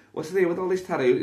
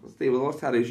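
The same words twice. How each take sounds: First: Excited question. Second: Said in the usual way. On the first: Acted. First take, higher.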